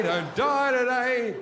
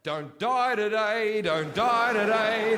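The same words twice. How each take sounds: First: Louder plea. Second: Desperate plea. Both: Retold or imitated. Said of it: "what dreams are like in Africa".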